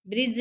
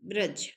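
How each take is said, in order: First: ब्रिज with an i vowel; wrong form brij. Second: ब्रज lower, with a short a; correct form braj. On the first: (ब्रिज, इ की मात्रा के साथ) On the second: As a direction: drop the pitch and say ब्रज as braj. (ब्रज, बिना इ की मात्रा के) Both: Shown as a demonstration. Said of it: "ब्रिज नहीं".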